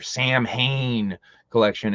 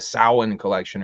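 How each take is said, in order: First: It sounds like the two words 'Sam Hain'. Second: It does not sound like 'Sam Hain'. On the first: The speaker calls it wrong. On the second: The speaker calls it right.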